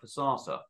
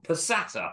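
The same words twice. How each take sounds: First: It is said in a southern English accent. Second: It is said in a northern English accent.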